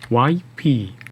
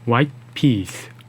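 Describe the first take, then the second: First: No t sound comes before peas at all. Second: A silent held t stops the breath before peas. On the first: "t가 없는 발음과 비교해보세요" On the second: "t의 발음을 터뜨리지 않고 마치 우리말의 종성처럼 혀를 입천장에 붙인 상태에서 호흡을 멈춘 발음"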